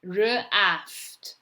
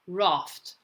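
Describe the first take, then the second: First: R split off from "aft"; sounding out. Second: Said in the usual way. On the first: Shown as a demonstration. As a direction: say R, then aft, separately. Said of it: "say the letters as you're writing". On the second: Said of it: "you're going to read the word".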